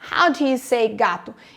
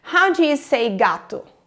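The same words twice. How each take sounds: First: How and gato are stressed; do you is weak. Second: How and gato are stressed; do you is weak.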